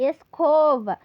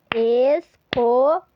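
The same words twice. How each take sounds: First: Said in the usual way. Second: "Escova" very slow and louder, es-co-va; syllables clapped. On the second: Shown as a demonstration. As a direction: beat out "Escova" loudly, slowly. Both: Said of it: "aquele recurso das palminhas".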